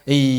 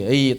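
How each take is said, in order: No difference in how they are said.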